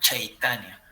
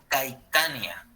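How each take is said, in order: First: The name begins with a ch sound. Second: The name begins with a hard k sound. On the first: The speaker calls it right. "la C se lee como una H, entonces se llamaría Chaitanya" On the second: The speaker calls it wrong. "lo vas a leer como la C y va a decir Caitania"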